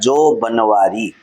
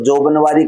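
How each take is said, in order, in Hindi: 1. पहले अक्षर के बाद विराम है। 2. यह बिना विराम के एक शब्द की तरह बोला जाता है। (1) "जो के बीच में अलग विराम लगा करके" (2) "अगर अपन एक साथ बोल देते हैं"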